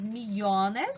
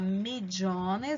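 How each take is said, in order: First: It is said with a non-Argentine pronunciation. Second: It is said with an Argentine pronunciation. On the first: "em alguns outros países" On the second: "Na Argentina você fala"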